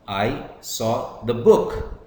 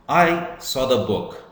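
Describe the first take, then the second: First: The stress is on the word book. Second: The stress is on the word I. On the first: It was this book and not something else. "I'm stressing the book" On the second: It was me and not somebody else who saw it. "Here, I is emphasized, I is stressed"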